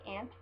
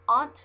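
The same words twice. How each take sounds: First: Aunt said like "ant", flat a as in cat. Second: Aunt said as "ahnt", open ah vowel; aunt with broad ah. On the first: Showing her other way, aunt said like "ant". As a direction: say aunt rhyming with pant. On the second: Reading a word list on camera, aunt said "ahnt". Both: Shown as a demonstration. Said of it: "I also say aunt".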